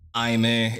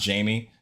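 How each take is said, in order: First: The name begins with an H sound. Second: The name begins with a J sound. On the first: The speaker calls it right. "it's like Jaime because it has like an accent over the E" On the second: The speaker calls it wrong. "like not Jamie"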